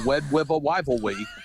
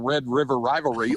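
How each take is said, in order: First: The r sounds are pronounced like w. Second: The r sounds are pronounced as clear r. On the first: The speaker calls it wrong. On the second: The speaker calls it right.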